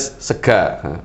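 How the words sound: The word ends with an open 'a' vowel. This is how the speaker's home region says it. "Kalau saya dari Purbalingga Banyumas pasti A A"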